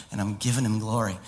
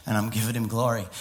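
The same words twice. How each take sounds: The two takes are said the same way.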